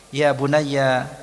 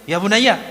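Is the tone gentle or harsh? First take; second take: gentle; harsh. First: It is said in a soft, tender tone. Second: It is said in a harsh, scolding tone. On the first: The child is addressed with affection. The speaker calls it right. "panggilan penuh kasih sayang, kelembutan" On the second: The child is being scolded. The speaker calls it wrong. "Tidak mungkin ya bunayya begini"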